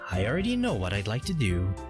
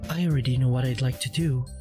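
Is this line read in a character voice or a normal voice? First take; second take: normal voice; character voice. First: It is read in the reader's own normal voice. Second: It is read in a put-on character voice. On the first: The speaker calls it wrong. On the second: The speaker calls it right.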